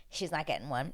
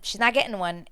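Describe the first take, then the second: First: Softer, matter-of-fact first take; quiet realisation; muted verdict. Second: "not getting one" higher and firmer; insistent "not", pitched up; emphatic repeat. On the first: Prediction, then repeated firmly. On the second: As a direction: punch "not" with more voice. Repeats the prediction firmly. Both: Retold or imitated.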